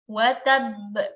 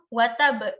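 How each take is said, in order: First: The first b is held, the second bounced. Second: A single final b is bounced, not doubled. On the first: The speaker calls it right. "ba pertama kita baca sebagai sukun biasa ... ba yang kedua itu kita pantulkan" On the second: The speaker calls it wrong. "pantulannya hanya satu huruf, sedangkan satu hurufnya lagi hilang"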